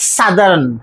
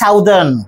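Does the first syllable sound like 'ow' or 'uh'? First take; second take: uh; ow. First: The first syllable has an 'uh' vowel. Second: The first syllable has an 'ow' vowel. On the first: The speaker calls it right. "আমাদের উচ্চারণটা হচ্ছে সাদার্ন" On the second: The speaker calls it wrong. "ওই প্যাটার্নে এটাকেও বলি সাউদার্ন, কিন্তু না"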